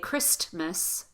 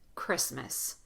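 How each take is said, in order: First: The T sound is clearly pronounced. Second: The T sound is left out. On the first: The speaker calls it wrong. "We don't say Christmas" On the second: The speaker calls it right. "The T is not pronounced"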